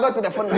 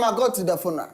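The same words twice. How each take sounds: First: The words are spoken at moderate speed. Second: The words are spoken slowly and normally. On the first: "So do it medium" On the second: "then slower, please. Speak like normal"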